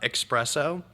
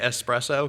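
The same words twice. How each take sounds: First: It starts with an 'ex' sound, like expresso. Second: It starts with a plain 'es' sound. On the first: The speaker calls it wrong. "mad at myself for saying um" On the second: The speaker calls it right. "I try to say espresso because that's what it is"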